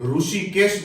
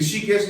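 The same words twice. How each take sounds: First: The first syllable is pronounced 'ru'. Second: The first syllable is pronounced 'ri'. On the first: This is how it is said locally. "हमारे यहां इसको रू बोलते हैं" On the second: This is not how it is said locally. "नहीं बोला जाता है"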